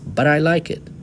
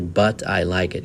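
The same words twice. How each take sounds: First: The words but and I run together. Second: The words but and I are said separately. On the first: The speaker calls it right. "we pronounce these two words together" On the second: The speaker calls it wrong. "You don't say"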